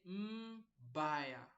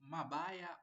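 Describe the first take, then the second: First: No vowel is heard after the m. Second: An a vowel is heard after the m. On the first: The speaker calls it right. "there is no vowel here" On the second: The speaker calls it wrong. "So you don't say mabaya"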